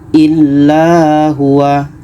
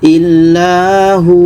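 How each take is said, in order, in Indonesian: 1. Kata ini berakhir dengan vokal 'a' pendek. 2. Kata ini berakhir dengan 'u' panjang yang ditahan dua ketukan. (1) "itu tidak boleh" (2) "kita panjangkan dua harokat"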